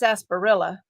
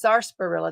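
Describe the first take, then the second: First: The first syllable is said without an R sound. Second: The first syllable is said with an R sound. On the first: This is the speaker's own habitual way of saying it. "I would have called that sarsaparilla" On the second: This is how someone else says it. "There's an R in there"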